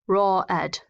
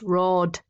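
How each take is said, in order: First: The ending is an extra ed syllable. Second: The ending is a plain d, one syllable. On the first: The speaker calls it wrong. "We don't go raw, raw ed" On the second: The speaker calls it right. "but here it's just roared"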